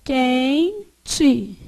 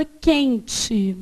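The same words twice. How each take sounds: First: "Quente" split as quen, te with a gap; syllable by syllable. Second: Said in the usual way. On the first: Shown as a demonstration. Teacher asks how to separate it, syllable by syllable. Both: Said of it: "Como é que eu separo?".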